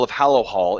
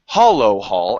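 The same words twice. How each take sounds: First: "Hallow Hall" with the a of hallow; correct name. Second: "Hollow Hall" with an open o as in hollow; mispronounced name. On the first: A narrator's reading. Narrator giving the town's true name "Hallow Hall". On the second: Retold or imitated. Elf repeating the party's slip, stressing "Hollow Hall". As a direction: say "Hollow Hall", not Hallow. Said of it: "as if you said".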